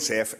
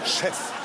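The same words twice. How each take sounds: First: It is said plainly, in an ordinary voice. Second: It is said in a pinched, affected, snobbish voice. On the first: This is the ordinary word for a boss. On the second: This is the pretentious way the restaurant trade says it.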